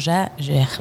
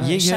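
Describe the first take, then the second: First: The name is pronounced the French way. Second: The name is pronounced the German way. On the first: This is how the name is said in France. "Sauf qu'en français, tu prononcerais comment?" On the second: This is the original pronunciation of the name. "Chasseur en allemand"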